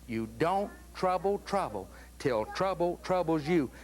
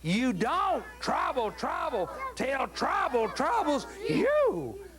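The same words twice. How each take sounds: First: It is said at normal volume. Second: It is said as loudly as possible.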